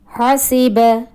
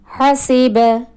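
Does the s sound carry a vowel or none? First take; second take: vowel; vowel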